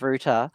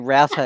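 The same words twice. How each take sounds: First: The first vowel rhymes with 'boot'. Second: The first vowel rhymes with 'out'. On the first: This sounds like a word with another meaning. The speaker calls it wrong. "instead of router" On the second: This avoids a word with another meaning. The speaker calls it right. "I say router"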